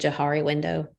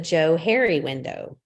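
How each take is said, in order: First: The name is said as one word, jo-HAR-ee. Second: The name is said as two names, Joe Harry. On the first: The speaker calls it wrong. "what I thought was the Johari window" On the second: The speaker calls it right. "It's the Joe Harry window"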